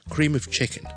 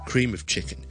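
First: The word 'of' has a weak vowel, linked on. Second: The same.

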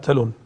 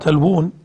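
First: The word is said with one w sound. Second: The word is said with two w sounds. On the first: This is a reading based only on the written script. The speaker calls it wrong. "لو كنا نعتمد على الرسم لقرأناها" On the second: This is the reading preserved in memory. The speaker calls it right. "كتبت بواو واحدة"

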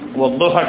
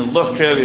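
First: The middle consonant is followed by a vowel. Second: The middle consonant has no vowel after it. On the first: Someone who laughs at others. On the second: Someone who is laughed at.

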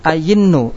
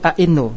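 First: The middle consonant is a y sound. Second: The middle consonant is a glottal stop. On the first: "ayinnu asalnya adalah ainnu" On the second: "boleh dibaca tahqiq tanpa ibdal"

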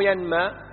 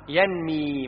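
First: The vowel after the m is a. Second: The vowel after the m is i. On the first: The speaker calls it wrong. "هذا غلط ترى" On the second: The speaker calls it right. "نمى المال ينمي مو ينمى"

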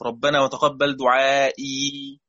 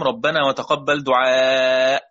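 First: The last word ends with a final 'ee' sound. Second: The last word ends without a final 'ee' sound. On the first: This is the reading that keeps the final letter. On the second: This is the reading that omits the final letter.

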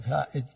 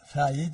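First: The middle consonant is a glottal stop. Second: The middle consonant is a y sound.

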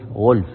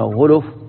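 First: The L has no vowel after it. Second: The L is followed by a 'u' vowel. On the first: This is the well-known established reading. "بإسكان اللام" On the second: This reading has no doubling. "بالضمتين"

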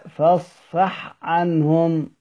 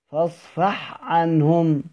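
The two takes are said the same way.

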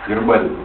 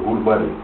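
First: The first vowel is an 'e' sound. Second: The first vowel is an 'u' sound. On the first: "Гербарий, как он называется?" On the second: "Ну она говорила, гурбарий"

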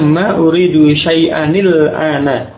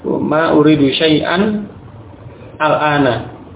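First: The words run together with an added i sound. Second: The words are said apart without the i sound. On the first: "kalau itu dibaca dengan bersambung seperti itu" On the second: "Adapun ketika membaca terpisah, maka kembali ke asalnya"

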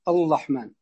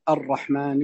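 First: The r is replaced by an l sound. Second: The word is said with a normal r sound. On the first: The speaker calls it wrong. "أو يأتي باللام" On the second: The speaker calls it right. "ما يقول الرحمن"

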